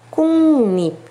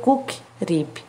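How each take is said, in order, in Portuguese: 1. A primeira sílaba termina com o som nasal de ng. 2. A primeira sílaba termina com o som forte de k. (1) "então em regra é o som do P curtinho" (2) "Não vai ser cook rip"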